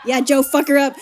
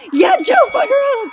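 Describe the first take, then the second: First: Said in the usual way. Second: Much higher and louder, yelling encouragement; cheering shout. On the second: Real, not acted. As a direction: hype her up like a fan at a fight.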